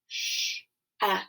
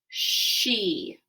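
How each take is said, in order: First: The vowel is a short eh sound. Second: The vowel is a long ee sound. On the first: The speaker calls it wrong. "which that too is not a real word" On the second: The speaker calls it right. "E on the end says the long sound instead of the short sound"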